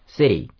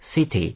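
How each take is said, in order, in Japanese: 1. 真ん中の子音は、Dに近い音です。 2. 真ん中の子音は、はっきりしたTの音です。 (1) "D っぽくやると、" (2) "これT の音でやったら、"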